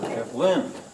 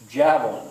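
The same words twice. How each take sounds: First: The stress is on a later syllable. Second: The stress is on the first syllable. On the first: The speaker calls it wrong. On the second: The speaker calls it right. "It's javelin"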